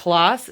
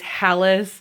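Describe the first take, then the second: First: The surname is said with a Norwegian pronunciation. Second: The surname is said with an American pronunciation. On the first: The speaker calls it right. "the Norwegian way is" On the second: The speaker calls it wrong. "The American way is"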